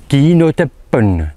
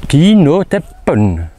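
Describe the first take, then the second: No difference in how they are said.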